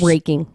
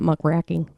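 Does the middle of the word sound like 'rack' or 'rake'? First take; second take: rake; rack. First: The middle syllable sounds like 'rake'. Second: The middle syllable sounds like 'rack'. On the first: The speaker calls it right. "muckraking, not muckraking" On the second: The speaker calls it wrong. "not muckraking"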